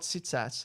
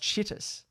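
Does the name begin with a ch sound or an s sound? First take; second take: s sound; ch sound. First: The name begins with an s sound. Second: The name begins with a ch sound. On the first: The speaker calls it wrong. "not uh, not Sitsas" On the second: The speaker calls it right. "I've heard it's, it's pronounced Chittis"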